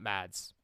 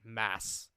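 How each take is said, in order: First: The name has a d sound before the s. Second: The name ends in a plain s, no d. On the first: The speaker calls it wrong. "not Mads" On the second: The speaker calls it right. "That's how you actually pronounce it. Mass"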